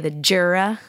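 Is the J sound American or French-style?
American. The name is said with an American accent.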